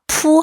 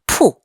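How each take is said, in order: First: The syllable is said without a falling tone. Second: The syllable is said with a falling tone. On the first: It is a verb meaning to spread out. "푸 하면은 동사" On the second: It is a noun meaning a shop. "이걸 사성으로 읽으면 명사가 돼요"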